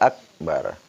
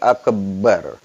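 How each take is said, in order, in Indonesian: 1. Bunyi b tunggal dan singkat. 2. Bunyi b dirangkap dan ditahan. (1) "Tetap dibaca" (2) "Enggak boleh mentasdidkan huruf ba. Jadi enggak boleh dibaca"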